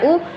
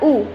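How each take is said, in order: First: The vowel is short. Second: The vowel is long. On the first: The speaker calls it right. "cara membaca u langsung ula" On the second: The speaker calls it wrong. "tidak u, u tidak panjang"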